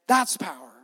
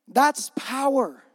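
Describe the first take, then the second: First: Said in the usual way. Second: That's power stretched slow, stress on That's; slow emphatic declaration. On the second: Shown as a demonstration. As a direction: draw out That's power like a proclamation.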